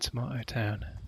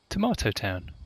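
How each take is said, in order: First: The stress falls on the word town. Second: The stress falls on the word tomato.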